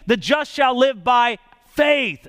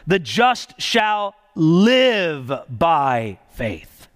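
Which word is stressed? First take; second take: faith; live. First: The stress is on the word faith. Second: The stress is on the word live.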